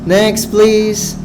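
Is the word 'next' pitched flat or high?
flat. Next is said flat, not raised above please. The speaker shows little interest. The speaker calls it wrong. "Itu sama sekali tidak bagus"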